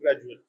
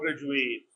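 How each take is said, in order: First: The last vowel is a reduced 'uh' sound. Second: The last vowel is a full 'ay' sound. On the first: It is used as a noun or adjective. "And as noun and adjective" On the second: It is used as a verb. "As a verb"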